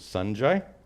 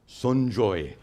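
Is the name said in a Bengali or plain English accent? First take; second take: plain English; Bengali. First: The name is said in plain English accent. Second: The name is said in a Bengali accent.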